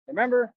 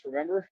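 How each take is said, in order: First: Remember? lifted up high and louder; Remember? said higher and more insistent. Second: Said in the usual way. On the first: Shown as a demonstration. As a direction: repeat Remember? higher and louder, pressing for an answer.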